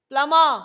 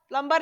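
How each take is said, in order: First: The b sound is left out entirely. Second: The b sound is pronounced in the middle. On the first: The speaker calls it right. "ब का sound नहीं आएगा इसमें" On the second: The speaker calls it wrong. "प्लम्बर नहीं पढ़ते हैं"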